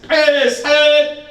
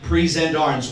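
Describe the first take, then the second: First: It is barked loudly and sharply. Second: It is said in a plain, ordinary voice.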